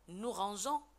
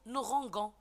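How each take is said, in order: First: The g is soft, like the s in measure. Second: The g is hard, like the g in go. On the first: The speaker calls it right. "au lieu de dire nous rangeons" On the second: The speaker calls it wrong. "si on n'ajoute pas le E, ... on va dire nous rangons"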